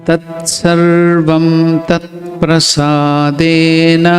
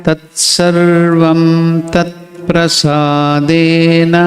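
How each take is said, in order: The two takes are said the same way.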